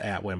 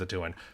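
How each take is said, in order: First: The name is said as 'Atwin'. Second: The name is said as 'a Tuin'. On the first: This is how the speaker used to say it. The speaker calls it wrong. "I always said Atwin" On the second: This is how the speaker thinks it is pronounced. The speaker calls it right. "but I think it's a Tuin"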